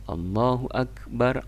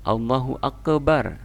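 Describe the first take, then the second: First: The k sound is held without a bounce. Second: The k sound is released with a bounce. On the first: The speaker calls it right. "Yang benar adalah takbir. ... Dia tidak ada qalqalah" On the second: The speaker calls it wrong. "Allahu akbar salah"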